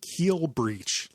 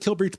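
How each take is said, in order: First: The first part sounds like the word keel. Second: The first part sounds like the word kill. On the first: The speaker calls it right. "like breaching the keel of a ship" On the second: The speaker calls it wrong. "I'm never gonna say it right"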